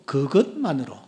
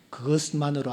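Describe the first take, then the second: First: The word is said with strong emphasis. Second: The word is said plainly, without emphasis.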